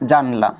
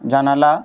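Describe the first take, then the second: First: The word has two syllables, without a middle vowel. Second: The word has three syllables, with a middle vowel. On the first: "আবার অনেকেই বলি যে জানলা" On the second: "আমরা অনেকেই বলে থাকি যে জানালা"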